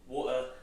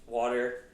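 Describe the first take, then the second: First: It is said in a British accent. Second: It is said in an American accent. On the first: "if you guys don't know, from the U K" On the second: "the water is like the American version"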